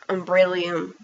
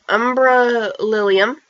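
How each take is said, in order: First: The name is blended into one shorter word. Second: The name is said as two distinct parts. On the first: The speaker calls it wrong. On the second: The speaker calls it right.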